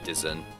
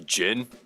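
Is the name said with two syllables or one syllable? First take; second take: two syllables; one syllable. First: The name is said with two syllables. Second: The name is said with one syllable. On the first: This is how the game's creator said it. The speaker calls it wrong. "Or as Archmage pronounced it" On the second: This is the actual pronunciation. The speaker calls it right. "it's actually Jin"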